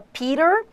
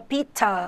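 First: It is said in an American accent. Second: It is said in a British accent. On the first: "o americano fala" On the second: "o britânico fala"

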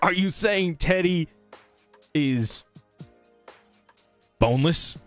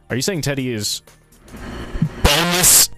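First: It is said at a quieter volume. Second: It is said very loudly.

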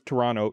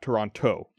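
First: The second T is dropped, like 'Toronno'. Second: The second T is clearly pronounced. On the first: This is how people from the city say it. The speaker calls it right. "People who are from Toronto don't say the T. / so it's Toronto" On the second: This is how people from elsewhere say it. The speaker calls it wrong. "not Toronto"

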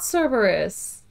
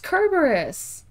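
First: The word begins with a soft S sound. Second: The word begins with a hard K sound. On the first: The speaker calls it wrong. "It is not Cerberus" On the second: The speaker calls it right. "The Greeks did not have a soft C. It's Kerberos"

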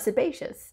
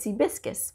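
First: The middle syllable sounds like 'bay'. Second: The middle syllable sounds like 'bis'. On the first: The speaker calls it right. "the proper pronunciation, is sebaceous" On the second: The speaker calls it wrong. "I insisted on calling it sebiscus"

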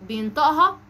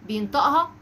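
The two takes are said the same way.

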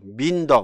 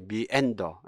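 First: The word is said with two syllables. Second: The word is said with three syllables. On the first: The speaker calls it wrong. "뭐 민더 뭐 이렇게 읽어버리면 안 돼요" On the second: The speaker calls it right. "이거는 미엔더거든요"

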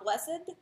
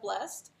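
First: It has two syllables, the second one stressed. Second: It is said as a single syllable. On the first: It follows the old religious reading of the text. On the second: It is the ordinary modern reading.

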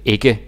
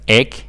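First: The word is pronounced fully and clearly. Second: The word is clipped and reduced. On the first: "You don't say ikke. You don't say it fully" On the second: "if you're from Sealand or Sjælland, then you kind of say it like ikke"

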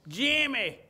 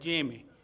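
First: The name is called loudly. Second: The name is called at normal volume.

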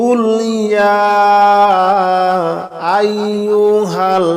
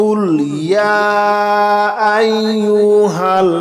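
No difference in how they are said.

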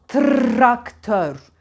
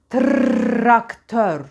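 The two takes are said the same way.

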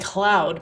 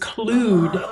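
First: The vowel sounds like 'ow' as in 'loud'. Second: The vowel sounds like 'oo' as in 'clue'. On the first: "when he was like prefacing in the beginning of the video, he would say cloud" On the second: "when he starts talking to it, he says clued"

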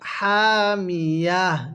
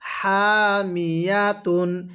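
First: The word ends with an 'h' sound. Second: The word ends with a 'tun' sound. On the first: The reader stops at this word. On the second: The reading continues without stopping.

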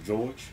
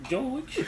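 First: It is said in the speaker's ordinary voice. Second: It is said in a put-on female voice. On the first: "You don't sound like no fucking female" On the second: "Make a female voice, man"

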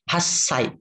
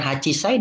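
First: The word is shortened to a doubled 's' sound. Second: The word is said with a full 'chi' syllable. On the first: The speaker calls it right. "disingkat hasai" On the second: The speaker calls it wrong. "bukan hachisai"

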